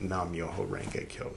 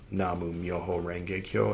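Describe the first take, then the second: First: The first word is said with one syllable. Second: The first word is said with two syllables. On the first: This is the breakaway group's form. "the guy that went off and started his own like rogue thing" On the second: This is the traditional form. "the more like traditional"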